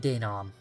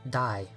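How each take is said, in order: First: The first syllable sounds like day. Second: The first syllable sounds like die. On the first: The speaker calls it right. "Add an A and an I sound makes an A sound" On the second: The speaker calls it wrong. "I was pronouncing it Die for some reason"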